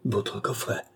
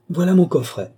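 First: Taken aback, soft and subdued; stammered. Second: High, loud cry of discovery; exclaiming. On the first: Police chief caught holding the countess's casket, stammering. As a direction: say it softly, as if caught out. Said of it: "balbutia monsieur de Sartine". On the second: Countess pointing out her own casket, exclaiming. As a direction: exclaim it brightly, pitched up and louder. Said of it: "s'écria la comtesse". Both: A narrator's reading.

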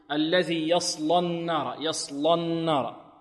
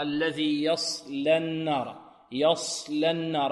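First: الذي يصلى النار with thickened emphatic lam after ص; wrong heavy lam. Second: الذي يصلى النار with emphatic ص but a light, thin لام; slow careful يصلى, keep the لام light; correct thin lam. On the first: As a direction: slowly pronounce يصلى with a heavy, velarized لام. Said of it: "وهذا خطأ". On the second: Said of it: "اللام مرققة". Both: Shown as a demonstration.

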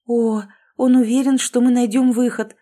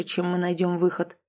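First: Higher and louder hopeful echo; excited. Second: Said in the usual way. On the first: A narrator's reading. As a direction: burst of hope, lift the voice. Heroine's relieved echo.

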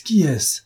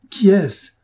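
First: Urgent, higher "Qui est-ce"; agitated question; agitated demand. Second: Much higher, louder "Qui est-ce"; near-shouted plea; frantic shout. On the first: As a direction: press her for the name. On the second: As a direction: burst out demanding the name. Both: A narrator's reading. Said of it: "avec une agitation extrême".

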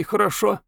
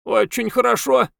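First: Put-on high, weak girl's voice; sick girl voice. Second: Squeaky toy voice, much higher; talking doll. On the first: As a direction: ask it gently from the sickbed. Girl asks, doll answers. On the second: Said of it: "пискливым голосом игрушки". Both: A narrator's reading.

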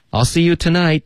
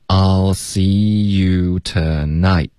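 First: Much higher-pitched, brisker model sentence; natural-speed demo. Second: Very slow, drawn-out model; slow linking demo. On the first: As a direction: say it connected and high, as in real use. (自然语速、音调较高地连读) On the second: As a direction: stretch each word so learners hear it. (慢速拉长示范) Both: Shown as a demonstration. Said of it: "我们请老师来先示范一下".

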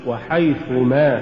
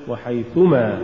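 First: Slow وحيث, then a stressed ما; separate words. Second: وحيث ما fused, falling; words run together. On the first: Teacher models correct recitation, وحيث apart from ما. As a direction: give ما its own weight after وحيث. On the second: Teacher shows the mistake, وحيث ما run together. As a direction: tack ما straight onto وحيث. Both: Shown as a demonstration. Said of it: "ولا تقل".

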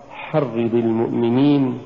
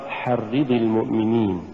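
First: "حرض" with short i, weight on the doubled r; correct حرض. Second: "حرض" with ri-di leaned on, as if feminine; mispronounced حرض. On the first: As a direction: glide lightly from حرض into المؤمنين. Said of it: "أن نقرأ". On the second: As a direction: press the i sounds in حرض. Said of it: "ولا نقرأ". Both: Shown as a demonstration.

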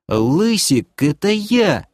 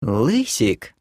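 First: High, eager squawk; yelped claim. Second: Cooing. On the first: Doc butts in on the demoness, eagerly yelping. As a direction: pipe up to claim it. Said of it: "вякнул Ток". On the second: Demoness glides up to the elf, cooing. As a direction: coo it flirtatiously. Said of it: "проворковала демоница". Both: Acted.

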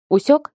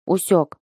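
First: УСЁК as a high rising question; questioning check. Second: УСЁК as a short falling answer; grumbled acknowledgement. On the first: Girl instructing her sparring pupil, questioning усёк with rising pitch. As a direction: push усёк sharply upward, demanding confirmation. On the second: Pupil answering his instructor, grumbled усёк with falling pitch. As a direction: let усёк drop, mildly grumbled. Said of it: "буркнул Лай". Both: A narrator's reading.

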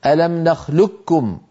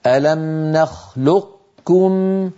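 First: "نخلقكم" with q merged into a doubled k; teacher's slow demo of "نخلقكم" with geminated kaf; full assimilation. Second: "نخلقكم" with a held, unbounced q released as k; very slowly close on q, release into k in "نخلقكم"; drawn-out demo of "نخلقكم" keeping the q's heaviness; partial assimilation. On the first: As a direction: slowly recite "نخلقكم" as nakhlukkum, no trace of q. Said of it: "ينطقوها كاف مشددة". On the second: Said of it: "من كان يقول هكذا". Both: Shown as a demonstration.

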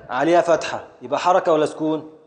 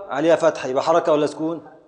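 The two takes are said the same way.

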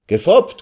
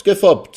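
First: Gefoppt shouted high with a rising turn; triumphant shout. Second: Gefoppt shouted high then falling; triumphant shout. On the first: The lawyer crows Gefoppt back at the guests, high rising shout. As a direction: crow Gefoppt up like a winner. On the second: The lawyer ends his tease to the guests, loud falling gefoppt. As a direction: land gefoppt hard and down. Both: A narrator's reading. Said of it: "schrie er nun seinerseits".

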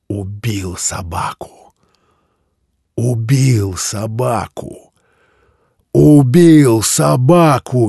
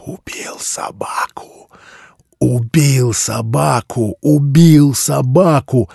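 First: Slow creaking chant building to a shout; cold mad glee. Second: Slow anguished chant, whisper rising to a cry; tormented, from a sobbing whisper to a wail; laughing into sobs. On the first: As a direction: gloat slowly, rising to a high shout. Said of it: "скрипучим голосом ... холодное, безумное ликование". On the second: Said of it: "смех аутсайдера перешёл в рыдание". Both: Acted.

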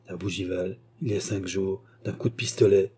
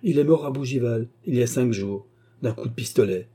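First: Stunned, subdued echo of the news; stupefied echo. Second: Said in the usual way. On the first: A narrator's reading. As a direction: repeat it numbly, in a stupor. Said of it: "répétait Sir Williams lentement et avec stupeur".

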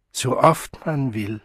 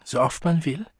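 First: "So oft man will" slow, without a questioning rise; slow confirmation. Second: "so oft man will" rising at the end, higher; questioning rise. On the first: Mother confirming the wonders of her world, slow statement. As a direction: draw out "So oft man will" as a settled answer. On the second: Child asking about the other world, questioning rise. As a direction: ask "so oft man will" with an upward lilt. Child asks, mother confirms. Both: A narrator's reading.

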